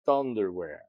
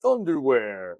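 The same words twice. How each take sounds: First: Said in the usual way. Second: Booming announcer voice, higher and louder; monster truck ad. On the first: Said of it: "in a monster truck voice". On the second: Shown as a demonstration. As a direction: belt it out like a monster truck rally promo. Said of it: "I blurted out in a monster truck voice".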